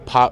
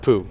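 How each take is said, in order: First: The name ends with an 'ow' vowel sound. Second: The name ends with an 'oo' vowel sound. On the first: This is the name's proper pronunciation. The speaker calls it right. "They couldn't pronounce Pau" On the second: This is how people who could not say the name pronounced it. The speaker calls it wrong. "They pronounced Pooh"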